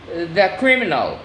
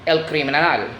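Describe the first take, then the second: First: Said in the usual way. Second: "criminal" in Spanish, kree-mee-NAHL; Spanish pronunciation. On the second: Shown as a demonstration. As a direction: say "el criminal" as Spanish, stressing the final "nal". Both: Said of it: "The stress word in the last syllable".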